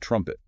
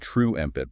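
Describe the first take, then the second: First: The first vowel is a short u. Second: The first vowel is not a short u. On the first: The speaker calls it right. "like the word jump, short U" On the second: The speaker calls it wrong. "It's not true empit"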